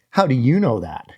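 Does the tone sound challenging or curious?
challenging. The tone is sharp and challenging. The speaker doubts the other person's authority. The speaker calls it wrong.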